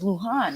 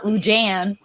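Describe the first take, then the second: First: The name is said with a Spanish pronunciation. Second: The name is said with an English pronunciation. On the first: The speaker calls it right. "the Spanish last name is is Lujan" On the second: The speaker calls it wrong. "It's not Lujan"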